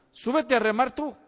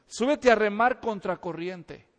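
First: Said in the usual way. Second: Slowed down, laughing through the words. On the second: Acted. Preacher teasing the congregation, laughing slowly. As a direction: tease them with a laugh. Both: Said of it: "preacher challenging the crowd".

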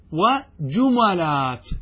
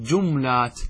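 First: وجملات as "wa-ju-ma-laat", a after the m; fatha on mim. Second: جملات as "jum-laat", no vowel after m; vowelless mim. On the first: Teacher shows students another allowed form, وجملات as "wa-ju-ma-laat". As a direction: say وجملات slowly, opening the mim to "ma". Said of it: "التسكين والفتح". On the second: Teacher demonstrates stilling the mim, جملات as "jum-laat". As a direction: close the m onto l in جملات, drawn out slowly. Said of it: "أن أسكن الميم في الجمع". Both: Shown as a demonstration.

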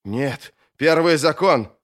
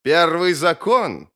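First: Slow, urgent appeal to the rule; a touch of alarm, each word weighed; alarmed protest. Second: Slow, higher mocking repeat; drawn-out scornful question; sneering echo. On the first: Acted. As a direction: object firmly, invoking the forbidden. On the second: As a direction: throw the words back with a sneer. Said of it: "Маг оскалил зубы в усмешке".

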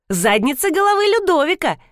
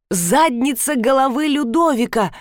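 First: Put-on high, eager child clarifying; little girl's voice. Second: Raised, emphatic repeat by the stranger; lightly voiced ape-man. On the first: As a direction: pipe it up like a small girl. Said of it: "уточнила кисуля". (высокий детский голосок) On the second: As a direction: echo the phrase grandly, less high than a child. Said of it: "повторила обезьяна". (незнакомец в маске обезьяны, с лёгким пафосом) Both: A narrator's reading.

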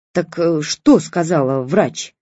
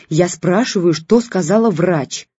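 First: Slow, calmer repeat of the question; no longer shouting. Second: Irritated. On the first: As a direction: ask again, quieted down. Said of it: "но уже не на крики". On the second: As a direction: press the question, irritated. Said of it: "раздражённо сказала тётя Женя". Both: A narrator's reading.

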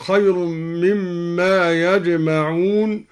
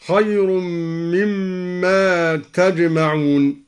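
First: Said in the usual way. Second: تجمعون with initial ta, "tajma'un"; slow, drawn-out مما, then تجمعون starting with t; second-person reading. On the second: Shown as a demonstration. Teacher shows al-Duri's reading تجمعون, t at the start. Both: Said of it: "قرأ الدوري بالخطاب هكذا".

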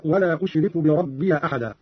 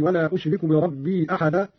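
First: بربي ending in "-ya", bi-rabbiya; fatha on ya. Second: Said in the usual way. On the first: Shown as a demonstration. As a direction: voice an a after the y of بربي. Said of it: "بفتح الياء هكذا". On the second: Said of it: "قرأ قالون بفتح الياء".

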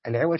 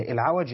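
First: العوج said with i after the ʿayn; العوج as ʿiwaj, short i under the ʿayn; ʿiwaj with kasra. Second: العوج said with a after the ʿayn; العوج as ʿawaj, open a on the ʿayn; ʿawaj with fatha. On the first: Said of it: "والعوج يعني بالكسر، كسر العين". (العوج بكسر العين) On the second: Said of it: "وبالفتح يكون في الأشخاص". (العوج بفتح العين) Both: Shown as a demonstration.

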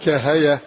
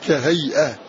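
First: "كهيئة" as ka-ha-yah, no glottal stop; hamza dropped. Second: "كهيئة" as ka-hay-ah, glottal stop after the y; hamza pronounced. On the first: Teacher deleting the hamza, "كهيئة" run together as kahayah. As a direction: let y carry the vowel in "كهيئة". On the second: Teacher showing the original word, "كهيئة" with hamza pronounced. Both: Shown as a demonstration. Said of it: "الهمزة فنقول كهيئة".

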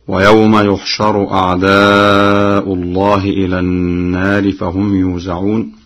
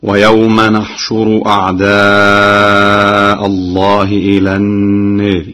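First: Quran recitation. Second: نحشر with nun fatha and shin damma, أعداءَ with fatha, slow chant; Warsh reading. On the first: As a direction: recite it with measured tajweed. Hafs reading shown first. (تلاوة مجودة بحفص) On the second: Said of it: "هكذا". (نحشر بالنون المفتوحة وضم الشين ونصب أعداءَ) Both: Shown as a demonstration.

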